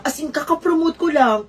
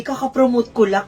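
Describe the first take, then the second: First: "As in, kaka-promote ko lang" repeated with pointed emphasis as a boast; emphatic brag. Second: Said in the usual way. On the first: Shown as a demonstration. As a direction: lean into "kaka-promote" to show off. (pinagdiinan ang "kaka-promote")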